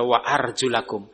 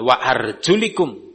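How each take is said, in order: First: The vowel after the L is 'a'. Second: The vowel after the L is 'i'. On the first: The feet are washed. The speaker calls it right. "tapi dibaca wa arjulakum" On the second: The feet are only wiped. The speaker calls it wrong. "Bukan wa arjulikum"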